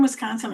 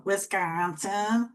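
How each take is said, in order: First: Said in the usual way. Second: Put-on Wisconsin accent with the middle vowel long drawn out; slow, stretched "Wisconsin" in a thick local Midwestern accent. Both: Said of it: "By your accent".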